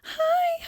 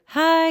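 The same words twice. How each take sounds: First: It is said high, in a head voice. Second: It is said low, in a chest voice.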